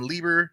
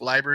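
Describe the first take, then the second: First: The first vowel sounds like 'ee'. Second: The first vowel sounds like 'eye'. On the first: This is the speaker's old habitual pronunciation. The speaker calls it wrong. "I think I used to call him Lieber" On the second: This is how the author said his own name. The speaker calls it right. "Leiber is the appropriate pronunciation"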